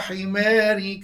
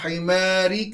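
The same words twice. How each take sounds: First: The long vowel leans toward an 'e' sound. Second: The long vowel is an open, plain 'a'. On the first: "Bacaan imalah" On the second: "contoh bagi bacaan fath"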